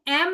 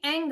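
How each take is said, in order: First: The syllable ends with a closed m sound. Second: The syllable ends with a nasal ng sound. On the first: "और एक एम आता है" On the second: "एक एंग आता है"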